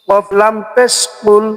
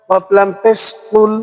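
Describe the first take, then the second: Both takes have the same delivery.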